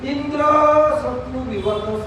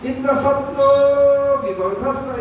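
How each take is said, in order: First: The word indra is said loudest. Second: The word shatru is said loudest. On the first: May the one whom Indra slays grow. The speaker calls it wrong. "ऐसे बोला" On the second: May the slayer of Indra grow. The speaker calls it right. "Indra शब्द अनुदात्त इंद्र, और शत्रु शब्द उदात्त जोर से"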